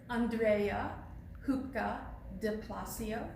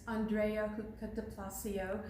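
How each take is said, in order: First: The name is said slowly. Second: The name is said at normal speed.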